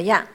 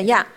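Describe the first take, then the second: First: 呀 without a long vowel; short vowel. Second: 呀 with a long vowel. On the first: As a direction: keep 呀 short, no lengthening. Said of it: "这个是没有长音的呀". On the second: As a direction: lengthen the vowel in 呀. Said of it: "这个是有长音的呀". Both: Shown as a demonstration.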